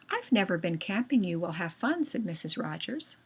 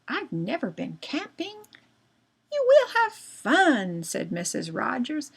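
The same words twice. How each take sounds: First: It runs on without pausing at punctuation. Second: It pauses at each comma and period. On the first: The speaker calls it wrong. "if I said that without punctuation" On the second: The speaker calls it right. "I'll stop at periods, and I'll pause at commas"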